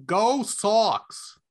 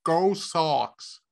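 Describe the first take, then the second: First: A quick try at a Boston accent, Go Sox. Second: Second, lower try at a Boston accent. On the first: Radio host tries his Boston accent for Tim, Boston accent. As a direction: cheer it like a Boston fan. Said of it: "Let me see if I could do this in my best, uh, accent, uh, from Beantown". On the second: Host tests if he could pass for Boston, Boston accent. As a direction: drop the New York sound and go Boston. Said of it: "could I pass for". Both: Shown as a demonstration.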